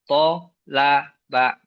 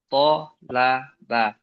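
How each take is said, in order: First: The syllables are read separately with pauses. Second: The syllables are joined quickly without pauses.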